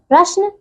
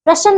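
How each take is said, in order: First: प्रश्न with joined "shn": prashn; correct pronunciation. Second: प्रश्न split as "prashan"; mispronunciation. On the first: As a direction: join sh and n in प्रश्न. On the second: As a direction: add a vowel between sh and n in प्रश्न. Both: Shown as a demonstration. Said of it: "प्रश्न नहीं".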